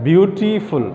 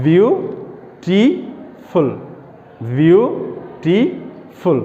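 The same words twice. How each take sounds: First: Said in the usual way. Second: বিউটিফুল very slowly as byu, ti, ful; broken into syllables. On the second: Shown as a demonstration. Teacher showing how to break up long words, very slow syllables. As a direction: stretch and separate each syllable of বিউটিফুল. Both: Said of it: "আমরা একটু ভেঙে ভেঙে উচ্চারণ করি".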